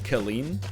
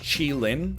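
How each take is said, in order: First: The name begins with a hard k sound. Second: The name begins with a ch sound. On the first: The speaker calls it wrong. "is not called Kalin" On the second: The speaker calls it right. "it's Chi-Lin"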